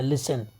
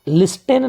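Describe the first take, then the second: First: The t sound is silent. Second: The t sound is pronounced. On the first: The speaker calls it right. "यहाँ टी का उच्चारण नहीं होता है" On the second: The speaker calls it wrong. "लिस्टेन नहीं पढ़ते हैं"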